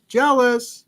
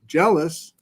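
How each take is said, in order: First: Mock jealous whine. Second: Said in the usual way. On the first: Repeats word in new voice.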